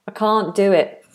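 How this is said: Can't has a long, open vowel like car. "any English accent would say can't"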